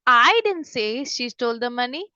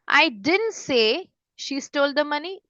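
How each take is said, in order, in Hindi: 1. Stress शब्द I पर पड़ता है। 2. स्ट्रेस शब्द didn't पर पड़ता है। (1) "अगर हाई पे मैं ज्यादा स्ट्रेस देती" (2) "फिर आता है डिडंट"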